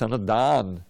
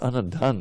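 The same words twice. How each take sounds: First: The vowel in the 'da' syllable is long. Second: The vowel in the 'da' syllable is short. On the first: The speaker calls it right. "D A with a long I, uh, a long uh" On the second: The speaker calls it wrong. "not Anadan"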